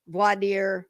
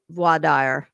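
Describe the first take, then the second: First: "Voir dire" said as vahr deer, with no w; "Voir dire" plainly English, vahr deer; anglicised voir dire. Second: "voir dire" said the French way, vwah deer-uh. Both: Shown as a demonstration. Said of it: "say it the opposite way".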